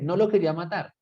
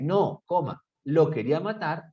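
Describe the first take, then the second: First: It is said without a pause after no. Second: There is a pause after no.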